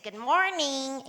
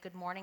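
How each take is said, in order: First: It is said in a Midwestern American accent. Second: It is said in a polished, standard accent. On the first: This mimics how the student sounded back then. "she'd always imitate me with my Midwestern accent" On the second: This is how the elocution teacher greeted the class. "the teacher would say"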